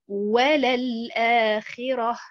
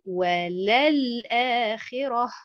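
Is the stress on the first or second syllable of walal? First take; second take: first; second. First: The stress falls on the first syllable, wa. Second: The stress falls on the second syllable, lal. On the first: It confirms that the hereafter is better. The speaker calls it right. "quand je mets l'accentuation sur harakat al-waw" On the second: It denies that the hereafter is better. The speaker calls it wrong. "Si je mets l'accentuation sur harakat al-lam"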